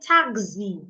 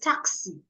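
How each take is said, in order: First: The x is sounded with a z. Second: The x is sounded with an s. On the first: The speaker calls it wrong. "Sometimes they say taxi. No, please don't say that" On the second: The speaker calls it right. "There is no Z sound in taxi"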